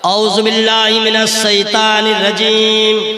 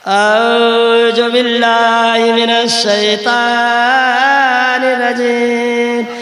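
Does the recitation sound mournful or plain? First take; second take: plain; mournful. First: It is recited in a plain, steady tone. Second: It is recited in a wailing, mournful tone. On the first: The speaker calls it right. "गौर से सुनिएगा।" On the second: The speaker calls it wrong. "लगे इसका शौहर आज ही मर गया है।"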